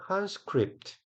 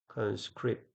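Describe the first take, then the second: First: Conscript with the first syllable CON pitched high and stressed. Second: Said in the usual way. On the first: Shown as a demonstration. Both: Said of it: "앞에 강세".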